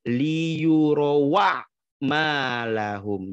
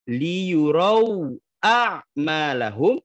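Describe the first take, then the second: First: No glottal catch; the words run straight together. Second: A glottal catch comes before 'a'malahum'. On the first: This is the reading of another transmission. "hamzahnya ... dihilangkan langsung masuk ke ain sukun" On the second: This is the reading of one transmission. "kalau di riwayat Imam Hafiz"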